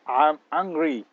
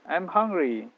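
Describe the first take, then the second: First: A slow, firm "I'm angry"; angry intonation. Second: "I'm hungry" with a high falling stress on "hungry"; "I'm hungry" with a clear fall on "hungry"; hungry intonation. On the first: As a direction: say "I'm angry" as if really cross, slowly. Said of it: "saya marah". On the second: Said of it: "cuman intonasinya saja, penekanannya saja". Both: Shown as a demonstration.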